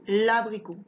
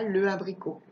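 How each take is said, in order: First: "l'abricot" joined as one word; correct elision. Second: "le abricot" with e and a sounded apart; wrong unelided article. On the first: Teacher offers the allowed form, "l'abricot" elided. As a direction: link l straight to a in "l'abricot". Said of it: "soit je dis". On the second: Teacher shows what not to say, "le abricot" unelided. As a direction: keep le as its own syllable in "le abricot". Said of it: "Je dis pas". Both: Shown as a demonstration.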